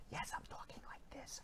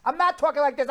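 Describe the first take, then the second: First: Barely audible whisper; whispered as if the volume were way down; mock whisper. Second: Said in the usual way. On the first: Shown as a demonstration. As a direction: drop to a tiny voiceless whisper.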